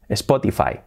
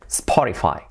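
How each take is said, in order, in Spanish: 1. Se dice con sonidos de estilo español. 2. Se dice con sonidos de estilo inglés. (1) "escuchamos siempre Spotify" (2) "La pronunciación, pues, sería Spotify"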